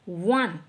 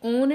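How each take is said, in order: First: The word begins with a w sound. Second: The word begins with a plain o vowel. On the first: The speaker calls it right. "आप इसे pronounce कीजिए वन" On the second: The speaker calls it wrong. "ये ओन नहीं बोलना है इसको"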